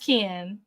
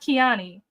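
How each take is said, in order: First: The name ends without a final 'ee' sound. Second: The name ends with a final 'ee' sound. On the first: The speaker calls it right. "so it is pronounced Kian" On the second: The speaker calls it wrong. "not Kiani"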